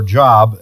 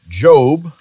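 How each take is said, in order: First: The vowel is short, rhyming with 'rob'. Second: The vowel is long, rhyming with 'robe'. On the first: The speaker calls it wrong. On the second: The speaker calls it right.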